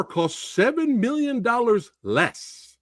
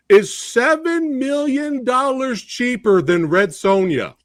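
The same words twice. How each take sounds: First: "seven" stressed again, slow and higher; emphatic repeat. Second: Seven stressed, higher and slow; emphatic slow stress. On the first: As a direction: drive home "seven million dollars less". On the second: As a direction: hammer home "seven million dollars cheaper". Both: Real, not acted. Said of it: "Let me repeat that".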